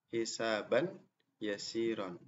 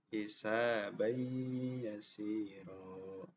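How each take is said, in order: First: The n is pronounced clearly before the y. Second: The n merges into the following y. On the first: The speaker calls it wrong. "Ini salah ya" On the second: The speaker calls it right. "Jadi melebur ya, dimasukkan"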